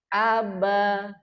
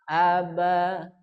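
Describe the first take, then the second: First: The word is said on a high, raised pitch. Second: The word is said on a middle pitch. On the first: "kolom pertama dibaca naik" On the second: "kolom kedua dibaca sedang"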